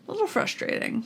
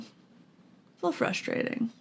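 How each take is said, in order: First: Said in the usual way. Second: Slow, breathy whisper under the breath. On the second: Real, not acted. Repeating frustration to herself in a slow whisper. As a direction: mutter it to yourself, slowly.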